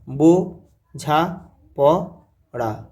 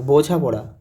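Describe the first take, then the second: First: "বো ঝা প ড়া" said slowly, one syllable at a time; split into syllables. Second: Said in the usual way. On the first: Shown as a demonstration. Teacher spelling out বোঝাপড়া syllable by syllable, slow. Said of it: "দেখো, বোঝাপড়া".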